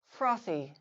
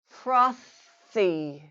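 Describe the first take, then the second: First: The word is said at normal conversational speed. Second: The word is said slowly and drawn out. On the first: "then at normal speed" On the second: "once slowly"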